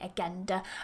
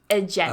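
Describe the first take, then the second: First: The g is a hard g sound. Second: The g is a soft j sound. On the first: The speaker calls it wrong. "watch out for that, that you're not saying agenda" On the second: The speaker calls it right. "You want to pronounce it correctly"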